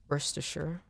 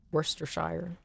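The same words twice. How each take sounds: First: Said in the usual way. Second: "Worcestershire" sounded out in full as "Wor-ces-ter-shire"; careful spelled-out try. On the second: Shown as a demonstration. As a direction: read every syllable of "Worcestershire". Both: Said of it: "I don't know how to say".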